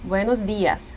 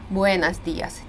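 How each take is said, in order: First: The o in buenos is pronounced as clear o. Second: The unstressed o in buenos sounds like a. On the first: The speaker calls it right. "Ні, дуже чітко" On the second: The speaker calls it wrong. "вони ненаголошене «о» вимовляють як «а»"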